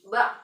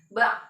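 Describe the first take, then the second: No difference in how they are said.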